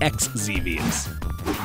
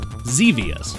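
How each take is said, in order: First: The word begins with an 'eks' sound. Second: The word begins with a plain 'z' sound. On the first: The speaker calls it wrong. "not X-Xevious" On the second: The speaker calls it right. "this game is actually pronounced Xevious"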